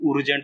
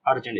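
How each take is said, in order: First: उर्जेंट starting with a short "oo"; wrong U vowel. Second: अर्जेंट starting with a short "uh"; A sound in अर्जेंट. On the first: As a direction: say उर्जेंट as "OOR-jent", the wrong reading. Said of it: "इसको उर्जेंट तो नहीं पढ़ते". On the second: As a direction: say अर्जेंट as "UR-jent" with the vowel of "up". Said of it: "ये अ का sound भी देता है". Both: Shown as a demonstration.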